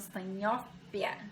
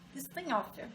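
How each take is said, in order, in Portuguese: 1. A consoante do meio tem som de P. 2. A consoante do meio tem som de F. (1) "alguns falam Steinhoffia" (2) "como o pH tem som de F, eu falo Steinhoffia"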